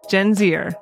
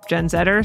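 First: The letter Z is said the American way. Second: The letter Z is said the Canadian way.

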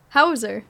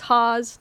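First: The name ends in an er sound. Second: The name rhymes with cause. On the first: This is the German way of saying it. "because it's a German last name. And they're like, Hauser" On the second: This is how the family has always said it. "as my whole family's been saying it my whole life, it's Hause, like cause"

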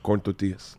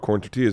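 First: It is said in a Mexican Spanish accent. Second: It is said in a plain American accent.

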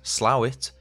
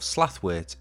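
First: The name is shortened with no 'th' sound. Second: The name is said in full with 'th'. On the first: This is the name as local residents say it. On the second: This is the name as it is spelt.

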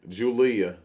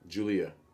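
First: The name is said in an Alabama accent. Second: The name is said in a plain accent.

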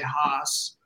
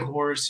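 First: It is said with a dropped R, Boston accent. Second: It is said with the R pronounced, no Boston accent.

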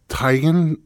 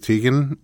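First: The first syllable sounds like 'Tiger'. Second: The first syllable does not sound like 'Tiger'. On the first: This is the name's original pronunciation. "she said it's Teigen, you know. / Like Tiger? / Yeah" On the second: This is how most people say the name. "since everybody says Teigen"

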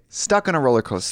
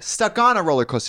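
First: The stress falls as in ordinary speech. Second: The stress falls unnaturally, as in the song.

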